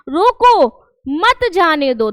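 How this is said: There is a pause inside the sentence.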